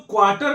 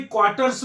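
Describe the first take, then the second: First: क्वार्टर ending on r, without the s; wrong singular form. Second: क्वार्टर्स with a clear final s; correct form with s. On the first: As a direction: say क्वार्टर with no final s sound. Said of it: "क्वार्टर्स में रहते हैं". (बिना स के क्वार्टर) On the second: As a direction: sound the s ending of क्वार्टर्स. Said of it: "हम लोग क्वार्टर में नहीं". (आख़िर में स के साथ क्वार्टर्स) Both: Shown as a demonstration.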